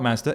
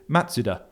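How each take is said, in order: First: It is said with an English pronunciation. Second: It is said with a Japanese pronunciation. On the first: The speaker calls it wrong. "we've been pronouncing Mazda wrong all these years" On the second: The speaker calls it right. "That's how they would say it in Japanese"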